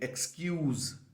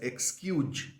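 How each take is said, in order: First: The word ends with a buzzing z sound. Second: The word ends with a j-like sound. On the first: The speaker calls it right. "I am again pronouncing a Z kind of a sound at the end of the word" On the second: The speaker calls it wrong. "many of you who are saying it as ... which is wrong. There is no J"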